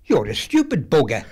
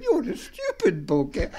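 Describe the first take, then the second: First: Said in the usual way. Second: Slow, laughing through the insult. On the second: Retold or imitated. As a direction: giggle out the parrot's words. Parrot line repeated, laughing.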